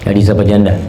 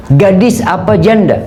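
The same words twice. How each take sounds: First: Said in the usual way. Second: Prophet's question, raised. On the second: Acted. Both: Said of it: "Ditanya Jabir".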